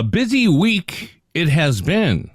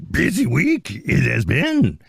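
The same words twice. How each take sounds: First: Slow, Yoda-style inverted phrasing. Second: Slow, higher Yoda croak. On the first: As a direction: speak it like Yoda, drawn out. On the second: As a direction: croak it like the little Jedi master. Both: Shown as a demonstration. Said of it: "I'm speaking like Yoda today".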